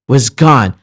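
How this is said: The stress falls on the word gone. The speaker calls it right. "I'm stressing the word gone. I'm not stressing the word was"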